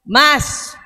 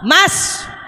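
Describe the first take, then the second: First: The name is called at a somewhat raised pitch. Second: The name is called at a very high pitch. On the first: This is the second call after being ignored. "panggilan kedua suaranya naik setengah oktav" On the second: This is the third call after being ignored twice. "langsung tujuh oktav"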